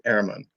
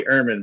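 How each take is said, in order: First: "Ehrman" said as AIR-mahn; "Ehrman" the German way, open EH vowel; German pronunciation. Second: "Ehrman" said as UR-mun; "Ehrman" starting like "urn"; American pronunciation. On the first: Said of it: "the German pronunciation is". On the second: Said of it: "in the States". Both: Shown as a demonstration.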